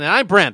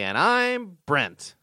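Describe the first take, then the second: First: The phrase is said quickly without lingering. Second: The name is stretched out and lingered on. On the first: The speaker calls it wrong. "Why do I have to say it so fast? Instead of saying" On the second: The speaker calls it right. "I'm going to linger on my name"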